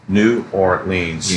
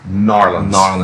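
First: The name is said with every syllable pronounced. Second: The name is squeezed into two slurred syllables. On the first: "you can break it down to syllables" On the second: "That's two syllables"

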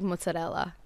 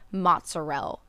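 First: It has a full Italian pronunciation. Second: It has a clipped Italian American pronunciation. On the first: The speaker calls it right. "instead of like mozzarella" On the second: The speaker calls it wrong. "if you said like mozzarella"

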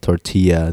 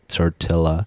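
First: The double L sounds like a Y. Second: The double L sounds like an L. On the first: The speaker calls it right. "The way it should be pronounced" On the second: The speaker calls it wrong. "The way everyone pronounces it"

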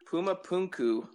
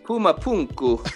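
First: It is said plainly, without a put-on accent. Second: It is said with a put-on Latin accent.

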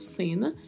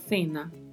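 First: The word begins with an s sound. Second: The word begins with a th sound. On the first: This is how it is said in Latin America. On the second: This is how it is said in Spain. "na Espanha é o som gerado com a língua entre os dentes"

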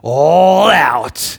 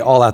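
First: It is said loudly with dramatic high energy. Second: It is said calmly at normal loudness. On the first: "They're like, all out. You know, like they do this whole thing" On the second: "they don't say all out"

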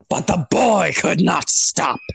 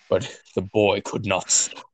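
First: It is said in a Starscream impression voice. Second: It is said in his normal voice.

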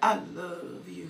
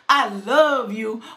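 First: It is said in a deep voice. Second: It is said in a normal voice.

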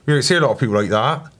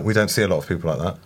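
First: It is said in a put-on Devon accent. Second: It is said in the speaker's ordinary accent.

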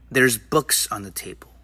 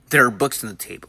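First: The words 'there are' are contracted to 'there's'. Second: The words 'there are' are said in full. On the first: The speaker calls it right. "it sounds more natural" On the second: The speaker calls it wrong. "we don't say"

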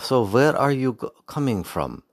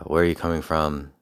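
First: It is said in a Red Skull German accent. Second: It is said in the speaker's ordinary accent.

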